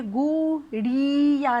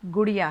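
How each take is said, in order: First: गुड़िया dragged slowly as "gooo-deee-ya"; drawn-out vowels. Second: Said in the usual way. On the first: Shown as a demonstration. Teacher showing what the word is not, vowels stretched. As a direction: hold the oo and ee of गुड़िया far too long. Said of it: "क्योंकि ये गुड़िया नहीं है". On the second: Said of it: "ये गुड़िया है".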